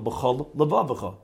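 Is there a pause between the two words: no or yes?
yes. There is a short pause between the two words. The speaker calls it right.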